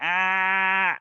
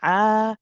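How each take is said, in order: First: The throat stays squeezed for the whole sound. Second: The throat squeezes only briefly at the start. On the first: The speaker calls it wrong. "You don't say ah and keep it squeezed" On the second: The speaker calls it right. "a small squeeze at the beginning, and let go"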